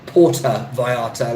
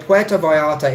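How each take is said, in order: First: The first word has an American-style pronunciation. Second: The first word has a Spanish-like pronunciation. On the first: The speaker calls it wrong. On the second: The speaker calls it right.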